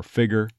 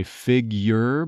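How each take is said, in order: First: "figure" as "FIG-er"; no Y sound. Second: "figure" as "FIG-yer"; full Y sound. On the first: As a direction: drop the Y from "figure". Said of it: "but to say more figure". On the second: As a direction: put a Y after the G in "figure". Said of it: "common to not say figure". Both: Shown as a demonstration.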